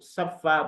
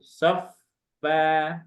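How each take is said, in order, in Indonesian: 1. Bunyi f ganda diucapkan cepat dan pendek. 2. Bunyi f ganda ditahan dengan aliran udara yang mengalir. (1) "Sofa bukan" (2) "tapi mengalir dulu"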